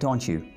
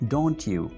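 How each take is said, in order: First: The words blend together, with a 'chu' sound. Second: The two words are pronounced separately and clearly. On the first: "अंग्रेज़ों के जैसा तो ये बनेगा" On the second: "अलग-अलग से प्रोनाउंस करेंगे तो ये बनेगा"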